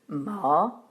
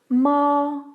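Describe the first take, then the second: First: The pitch rises from low to high. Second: The pitch stays high, long and flat. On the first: It means rough, or hemp. "Le deuxième ton part de la tonique et monte à la quinte" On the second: It means mother. "Le premier ton se prononce à la quinte supérieure. Il est long et plat"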